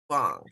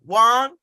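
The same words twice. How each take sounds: First: Wong. dropped low with a falling tune. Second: Wong? with pitch climbing high; questioning rise on Wong. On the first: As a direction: bring Wong down low, as a settled answer. Host settles on name's pronunciation. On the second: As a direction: lift Wong into a question, checking the name. Host checking name's pronunciation. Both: Real, not acted.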